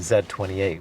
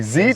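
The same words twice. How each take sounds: First: The letter Z is said as zed. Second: The letter Z is said as zee.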